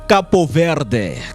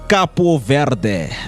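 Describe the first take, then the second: First: The first word is said with two syllables, Capo. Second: The first word is said with two syllables, Capo.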